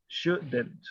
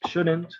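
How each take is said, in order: First: "shouldn't" sounded out softly as SHOO-dent; pronunciation demo. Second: Said in the usual way. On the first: Shown as a demonstration. Teacher shows Orlando the contraction, careful pronunciation of "shouldn't". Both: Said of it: "se pronuncia así tal cual".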